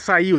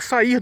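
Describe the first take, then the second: First: The word ends with an L sound. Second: The word ends with an R sound. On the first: The speaker calls it wrong. "mas ele nunca faria" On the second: The speaker calls it right. "ele faria sair do mesmo jeito"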